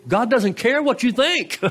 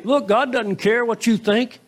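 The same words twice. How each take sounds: First: High-pitched, falling firmly on "think"; corrected restatement. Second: Raised pitch, left hanging at the end; mock a mean "Look", ending on a rise; mock mean retort. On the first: Retold or imitated. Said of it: "What he's saying is". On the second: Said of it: "being mean here. He's not saying".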